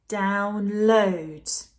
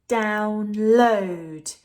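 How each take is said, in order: The two takes are said the same way.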